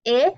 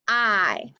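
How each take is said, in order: First: "I" said as ih, as in inch; short I sound. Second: "I" said as eye, the letter's name; long I sound. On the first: Teacher drilling vowels with pupils, "I" as short ih. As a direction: model "I" as a short ih. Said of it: "for the short sound". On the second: Teacher drilling vowels with pupils, "I" as long eye. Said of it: "for the long sound". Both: Shown as a demonstration.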